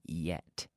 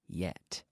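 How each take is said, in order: First: The word begins with a Y sound. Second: The same.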